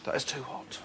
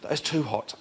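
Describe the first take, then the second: First: It is said as a mild complaint. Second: It is said as an intense, pained reaction.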